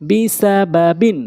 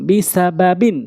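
No difference in how they are said.

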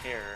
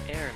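First: The word sounds like hair, with an h. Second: The word sounds like air, with no h. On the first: The speaker calls it wrong. "or hair" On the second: The speaker calls it right. "Actually, it's heir"

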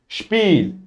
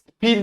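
First: The word begins with a sh sound. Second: The word begins with a plain s sound. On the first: The speaker calls it right. "Şıplıyorsunuz" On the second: The speaker calls it wrong. "Sizler sıp yapmıyorsunuz"

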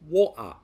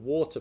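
First: The middle consonant is a glottal stop. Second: The middle consonant is a clear T sound. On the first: "Replacing the T sound with a glottal stop" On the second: "rather than the T that comes from the front of the mouth"

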